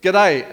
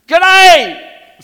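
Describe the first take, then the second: First: Said in the usual way. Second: G'day shouted high and very loud. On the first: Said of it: "So I said". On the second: Shown as a demonstration. Pastor showing kids how to greet, big shout. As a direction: bellow g'day to rouse them. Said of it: "No, you gotta".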